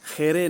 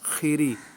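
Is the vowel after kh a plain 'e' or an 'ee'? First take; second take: plain e; clear ee. First: The vowels sound like a plain 'e'. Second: The vowels sound like a clear 'ee'. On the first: The speaker calls it wrong. "आखिरी खेरे नहीं करना" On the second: The speaker calls it right.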